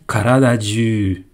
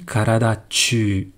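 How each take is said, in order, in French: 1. Le deuxième mot commence par un son j. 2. Le deuxième mot commence par un son ch. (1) "j'aurais dit karada ju" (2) "j'aurais pas dit karada chū"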